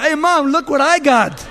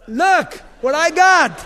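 First: Put-on high, loud, laughing kid's brag; kid showing off. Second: Slow, high and loud proud boast. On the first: David as a boy showing Mom his trophy, giggly and loud. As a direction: brag to Mom like an excited child, laughing through it. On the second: Acted. David showing off the giant's head, slow loud crowing. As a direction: hold up the prize and crow over it, drawn out.

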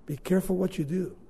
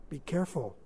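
First: Quick, plain-level warning; brisk warning; quicker warning. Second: Quiet, grave warning; softly, gravely. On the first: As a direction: push it out quickly. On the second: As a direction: drop it low and soft. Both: Shown as a demonstration.

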